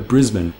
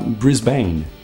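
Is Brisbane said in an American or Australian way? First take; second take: Australian; American. First: It is said with an Australian pronunciation. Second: It is said with an American pronunciation. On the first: The speaker calls it right. "o correto é Brisbane" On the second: The speaker calls it wrong. "os americanos têm mania de falar Brisbane"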